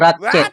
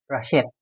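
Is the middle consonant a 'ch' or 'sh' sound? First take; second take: ch; sh. First: The middle consonant is a 'ch' sound. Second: The middle consonant is an 'sh' sound. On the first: The speaker calls it wrong. "Hindi po Ratchet" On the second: The speaker calls it right. "naririnig ko po talaga sa cartoon, ang tawag sa kanya is Rashette"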